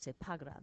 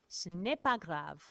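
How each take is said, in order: First: The negative 'ne' is dropped entirely. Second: The negative 'ne' is clearly pronounced.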